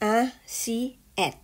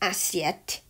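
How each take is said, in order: First: The syllables are said slowly, one at a time. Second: The syllables are said quickly as one word.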